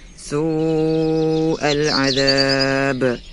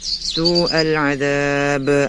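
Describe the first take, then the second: First: The long vowel is held long. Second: The long vowel is cut short. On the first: The speaker calls it right. "yang seharusnya dibaca" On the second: The speaker calls it wrong. "tanpa memanjangkan mad pada wawu sukun"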